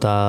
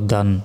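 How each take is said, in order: First: The syllable ends on an open a vowel. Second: The syllable ends with an n sound. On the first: The reader stops at this word. "দুই জবরে থামলে একটি জবর উচ্চারণ হয়" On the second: The reading continues without stopping. "দুই জবর দান"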